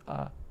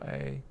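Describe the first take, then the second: First: The letter is said with its Sanskrit sound. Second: The letter is said with its English name. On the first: "in Sanskrit they're pronounced as A" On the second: "what we call A"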